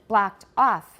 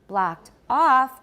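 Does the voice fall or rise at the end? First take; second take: fall; rise. First: The pitch falls at the end. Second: The pitch rises at the end. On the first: The utterance is finished. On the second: More is coming after a comma.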